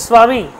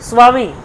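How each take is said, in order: Both takes have the same delivery.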